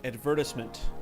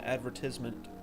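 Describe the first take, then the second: First: It is said in a British accent. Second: It is said in an American accent.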